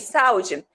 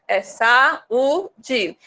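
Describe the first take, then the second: First: The two vowels glide quickly together in one syllable. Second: The two vowels are said in separate syllables. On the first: The speaker calls it wrong. "Tinha que falar bem rapidinho" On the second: The speaker calls it right. "Mas não é saúde, é saúde"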